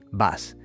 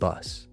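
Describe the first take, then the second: First: The vowel is an open Spanish 'ah' sound. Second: The vowel is a short central 'uh' sound. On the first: The speaker calls it wrong. "We change it to the Spanish A sound" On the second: The speaker calls it right. "It should be was and bus"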